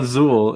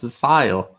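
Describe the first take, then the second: First: The second syllable has an 'oo' vowel. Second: The second syllable has an 'eye' vowel. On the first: The speaker calls it wrong. "It's not Azul" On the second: The speaker calls it right. "It's Asail"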